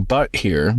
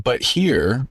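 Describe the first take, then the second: First: "but" punched as the key word; stress on BUT. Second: "here" drawn up with a rising end; stress on HERE. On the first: Cohost explains the script's meaning, stress on BUT. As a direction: put the weight on "but", not "here". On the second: Cohost quotes the script to argue, stress on HERE. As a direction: lean on "here" and lift it. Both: Shown as a demonstration. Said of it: "meaning "but here".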